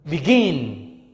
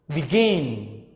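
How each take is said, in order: The two takes are said the same way.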